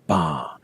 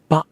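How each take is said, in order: First: The vowel is loose, lingering and not raised. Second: The vowel is cut off short and abruptly. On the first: The speaker calls it right. "keep the vowel loose and lingering a little bit ... You have to say ba" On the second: The speaker calls it wrong. "don't cut it off like someone has just interrupted you. Don't say ba"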